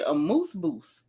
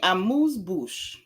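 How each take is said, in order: First: The final word ends with an st sound. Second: The final word ends with an sh sound. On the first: The speaker calls it wrong. "that baby said a moose boost" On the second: The speaker calls it right. "instead of saying amuse bouche"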